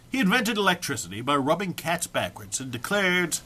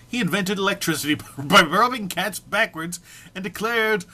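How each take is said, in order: First: Said in the usual way. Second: Laughing. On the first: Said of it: "Try again". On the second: Real, not acted. Cracking up while reading.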